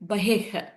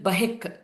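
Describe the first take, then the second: First: The word ends in a breathy h sound. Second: The word ends in an h-k sound. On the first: "the uh, Visarga is there" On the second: "Visarga followed by K will change to H K sound"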